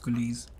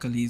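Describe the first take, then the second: First: The first syllable sounds like 'cool'. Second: The first syllable sounds like 'cal'. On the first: The speaker calls it right. "It's Kulis" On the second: The speaker calls it wrong. "it's not Kalis"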